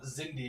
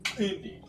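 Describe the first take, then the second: First: It begins with a plain z sound. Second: It begins with a click sound. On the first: This is how English readers would read it. The speaker calls it wrong. "it's not Zindi as you'd call it" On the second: This is how Xhosa speakers say it. The speaker calls it right. "It's actually Klindi because"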